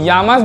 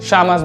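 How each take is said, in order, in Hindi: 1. पहला व्यंजन अंग्रेज़ी के y जैसा बोला जाता है। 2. पहला व्यंजन अंग्रेज़ी के sh जैसा बोला जाता है। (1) "इसको यामस भी बोल सकते हैं" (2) "इसको शामस भी बोल सकते हैं"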